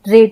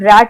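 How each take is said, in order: First: The vowel is closer, as in bed. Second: The vowel is open, as in cat. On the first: The speaker calls it wrong. "ना कि हम रेट बोलते हैं" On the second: The speaker calls it right. "हम रैट बोलते हैं"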